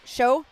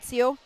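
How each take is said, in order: First: The syllable is pronounced like 'show'. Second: The syllable is pronounced like 'seo'. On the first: The speaker calls it right. "Show, not Seo" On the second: The speaker calls it wrong. "not Seo"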